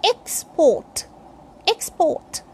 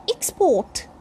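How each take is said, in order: First: "Export" opening on a clear E as in egg; noun export. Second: "export" opening on a short I sound; verb export. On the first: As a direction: say "Export" as EKS-pawt. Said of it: "This is noun or adjective". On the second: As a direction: say "export" as iks-PAWT. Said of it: "E sound starts the word". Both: Shown as a demonstration.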